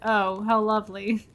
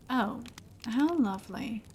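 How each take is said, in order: First: It is said with a sarcastic tone. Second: It is said plainly, sounding sincere.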